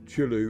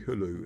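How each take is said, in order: First: The word begins with a 'ch' sound. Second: The word begins with an 'h' sound. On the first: The speaker calls it wrong. "C H at the start is often a silent C" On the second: The speaker calls it right. "is actually Hulu"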